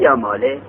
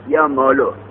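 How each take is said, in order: First: The name ends with an i vowel. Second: The name ends with a u vowel. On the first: The dropped letter is treated as if still present. "و الحرکت الاصلیه یا ماله" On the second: The dropped letter is treated as if it never existed. "از ذمه یا مالو"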